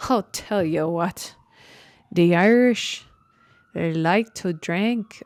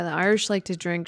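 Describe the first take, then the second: First: Bad Irish accent. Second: Said in the usual way. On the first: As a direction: put on a hammy, unconvincing Irish accent. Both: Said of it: "that was such a bad Irish accent".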